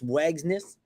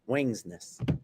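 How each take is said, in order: First: The name is said without an n before g. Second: The name is said with an n before g. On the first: The speaker calls it wrong. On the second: The speaker calls it right.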